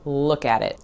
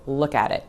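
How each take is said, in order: No difference in how they are said.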